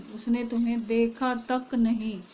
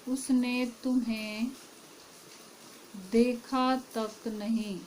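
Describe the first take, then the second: First: Said in the usual way. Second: Very slow, leaning hard on "तक" in "देखा तक नहीं"; teacher slowly drives home "तक"; stress on तक. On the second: Shown as a demonstration. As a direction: stretch it out and press "तक". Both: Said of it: "तक से इस वाक्य पे जोर डाला जा रहा है".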